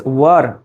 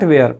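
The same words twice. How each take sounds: First: "were" with a central vowel, wur; "were" rhyming with fur; correct were. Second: "where" with an open e as in air; "where" with an e vowel, like the question word; wrong were. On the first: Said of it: "the correct one is were". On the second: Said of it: "the correct pronunciation is not where". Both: Shown as a demonstration.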